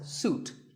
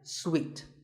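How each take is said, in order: First: The word does not sound like sweet. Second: The word sounds exactly like sweet. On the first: The speaker calls it wrong. "wrongly pronounced by many people as suite" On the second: The speaker calls it right. "it's sweet, like when you eat a piece of candy"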